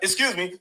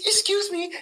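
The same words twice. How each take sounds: First: It is said loudly and forcefully. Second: It is said softly and timidly.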